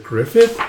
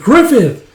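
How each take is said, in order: First: High, rising name-call; acted puzzled question. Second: Very high, loud name-call, falling at the end; acted alarmed cry. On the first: Follower stopped by the leader, puzzled questioning. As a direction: say "Griffith" as a surprised question, voice climbing. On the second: Band sees leader knocked off balance, alarmed shout. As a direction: yell "Griffith" in alarm.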